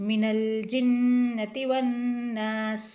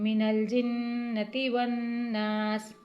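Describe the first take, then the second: No difference in how they are said.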